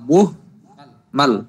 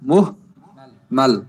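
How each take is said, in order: No difference in how they are said.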